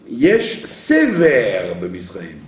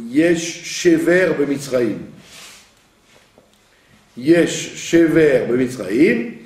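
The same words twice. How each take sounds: First: Sever with a plain s, slow; slow Sever with s not sh; Yesh Sever with sin. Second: Shever said with sh, slow; Yesh Shever with shin. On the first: Teacher showing Jacob's reading, Sever with s. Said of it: "transformé le shin en sin". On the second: Teacher retelling the sons' words, slow Shever with sh. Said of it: "Quand ses fils lui ont dit". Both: Shown as a demonstration.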